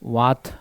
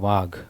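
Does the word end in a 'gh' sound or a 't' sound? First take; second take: t sound; gh sound. First: The word ends in a 't' sound. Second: The word ends in a 'gh' sound. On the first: The speaker calls it wrong. "ವಾತ್ ಅಲ್ಲ" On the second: The speaker calls it right. "ವಾತಲ್ಲ ವಾತಲ್ಲ Dhondiya ವಾಘ್"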